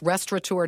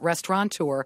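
First: The word has no n sound before the t. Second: The word has an n sound before the t. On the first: The speaker calls it right. "know it's restaurateur" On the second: The speaker calls it wrong. "not restaurateur"

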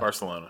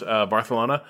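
First: The c is said as an s sound. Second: The c is said as a th sound. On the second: "the TH sound"

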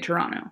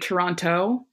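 First: The second T sound is dropped. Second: The second T sound is clearly pronounced. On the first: This is how locals say it. "If you're from Toronto, you just say Toronto" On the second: This is the form as it is spelled. "It's actually Toronto"

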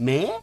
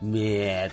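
First: The voice rises at the end, as a question. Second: The voice falls at the end, as a statement.

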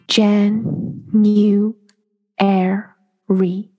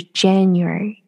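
First: The syllables are said very slowly and separately. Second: The syllables are joined quickly into one word. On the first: "你特别慢特别慢把这几个音讲出来" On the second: "然后连在一起的时候是January"

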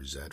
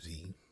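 First: The letter is said as zed. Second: The letter is said as zee.

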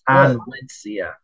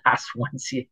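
First: The name begins with the sounds 'On'. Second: The name begins with the sounds 'Os'. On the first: The speaker calls it right. "It's Onwensia" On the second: The speaker calls it wrong. "It's not Oswensia"

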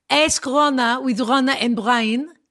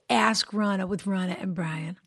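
First: It is said in an Israeli accent. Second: It is said in the speaker's usual accent.

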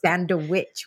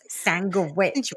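First: The middle consonant sounds like a D. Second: The middle consonant sounds like a G. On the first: The speaker calls it right. "It's sandwich with a D" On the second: The speaker calls it wrong. "it's not sandwich with a G"

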